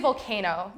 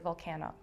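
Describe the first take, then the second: First: The word has its ordinary standalone pronunciation. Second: The word sounds slightly changed, as inside the compound. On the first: The speaker calls it wrong. "you wouldn't say volcano" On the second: The speaker calls it right. "you would say like volcano"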